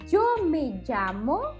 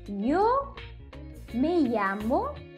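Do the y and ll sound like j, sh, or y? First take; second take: j; y. First: The y and ll sound like English j. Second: The y and ll sound like English y. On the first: "Vocês podem falar como uma jota, jota de jeans" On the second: "Segundo jeito, como uma i"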